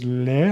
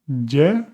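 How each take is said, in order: First: The consonant sounds almost like an l. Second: The consonant sounds like an English y. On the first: This is how it is said in other regions. "in others le, almost an L" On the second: This is how it is said in some regions. "in some places you would hear Y"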